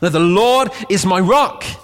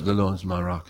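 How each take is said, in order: First: It is shouted loudly and forcefully. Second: It is said at a normal, calm volume.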